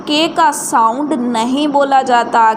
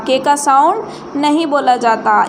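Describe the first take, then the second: The two takes are said the same way.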